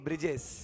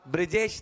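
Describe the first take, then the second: First: The word ends with an 's' sound. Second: The word ends with an 'sh' sound. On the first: The speaker calls it right. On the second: The speaker calls it wrong.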